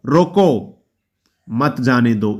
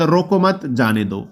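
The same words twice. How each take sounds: First: रोको said alone and raised, long pause, then मत जाने दो; pause after रोको. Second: रोको मत run together slowly, break, then जाने दो; slow रोको मत as one phrase, then जाने दो separately; pause after मत. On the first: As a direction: break firmly after रोको, keep मत जाने दो together lower. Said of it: "इसका बात अलग हो गया". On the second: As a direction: join मत onto रोको, pause before जाने दो. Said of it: "एक बात". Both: Shown as a demonstration.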